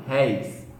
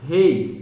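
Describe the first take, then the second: First: "réis" with an open é gliding to i; open diphthong. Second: "Reis" with a closed e; unstressed reis. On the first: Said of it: "ditongo aberto terminado em E I". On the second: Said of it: "é átono". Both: Shown as a demonstration.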